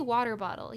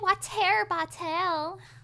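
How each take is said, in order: First: The t in water sounds like a soft d. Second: The t in water is crisp and clearly released. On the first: "I guess it does have the D" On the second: "she would do the T really, really like pronun uh, enunciated"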